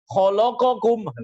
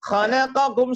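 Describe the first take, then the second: First: Every consonant is pronounced heavy and thick. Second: Every consonant is pronounced light and thin. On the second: "semuanya tipis"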